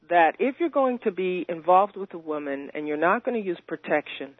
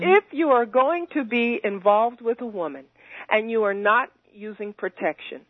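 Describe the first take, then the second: First: It is said at a normal speed. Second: It is said slowly and deliberately.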